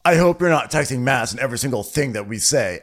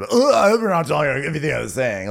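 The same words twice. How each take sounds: First: Imitated condescending remark, a bit raised; lightly mocking condescension. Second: High, fast, exaggerated mimicry of a condescending scold; hammed-up condescending quote; mocking condescension. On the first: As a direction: talk down to her in a retold quote. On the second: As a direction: parody his fussy condescension, pitched up and rushed. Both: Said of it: "so condescendingly".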